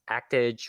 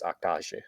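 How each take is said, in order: First: The title is pronounced the English way. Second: The title is pronounced the Japanese way. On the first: "Actage would be the English pronunciation" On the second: "in Japanese, they obviously because of the romanization, it's Actage"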